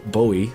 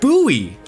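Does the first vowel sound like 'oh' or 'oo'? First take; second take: oh; oo. First: The first vowel is an 'oh' sound. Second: The first vowel is an 'oo' sound. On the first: The speaker calls it wrong. "which I personally would think is pronounced like [name]" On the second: The speaker calls it right. "but it's instead instead pronounced [name], like the knife"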